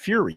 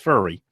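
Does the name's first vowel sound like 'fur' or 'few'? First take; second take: few; fur. First: The first vowel sounds like 'few'. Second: The first vowel sounds like 'fur'. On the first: It is the pronunciation he wishes the coach used. "You need to have your name pronounced Fury" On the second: It is how the coach really says his name. "but it's pronounced Furry"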